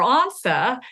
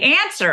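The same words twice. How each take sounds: First: The first vowel is a broad, open 'ah' sound. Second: The first vowel is a flat 'a' as in cat. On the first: This was the new upstart form, seen as common. The speaker calls it wrong. "That's vulgar. That's common" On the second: This is the older form, recommended at the time. The speaker calls it right. "You should say answer and ask and aunt"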